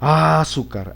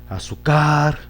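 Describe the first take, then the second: First: The stress is on the first syllable. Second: The stress is on the third syllable. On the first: "Vamos a ver si en, en la A" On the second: "En la car"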